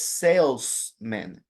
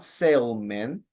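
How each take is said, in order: First: The s sound before -man is clearly pronounced. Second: The s sound before -man is dropped. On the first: The speaker calls it right. "It's salesman" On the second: The speaker calls it wrong. "not salesman ... would sound like a person who sails"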